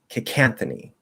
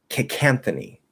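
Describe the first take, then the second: Both takes have the same delivery.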